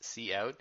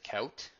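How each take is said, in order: First: It is said as the letter C plus 'out'. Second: It is said as one syllable, like 'coot'. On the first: The speaker calls it right. "it's cout, that stands for console out" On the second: The speaker calls it wrong. "don't pronounce it cout"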